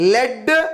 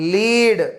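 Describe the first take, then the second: First: The vowel is a short 'e' sound. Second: The vowel is a long 'ee' sound. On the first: It names the metal. "సీసము" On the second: It means to guide others. "నాయకత్వం వహించడం"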